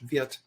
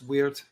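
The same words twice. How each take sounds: First: The name begins with a V sound. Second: The name begins with an English W sound. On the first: This is the German way of saying it. "in German it's Wirth, and the W is pronounced like a V" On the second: This is the English way of saying it. "We'd say in English, of course, it's Wirth"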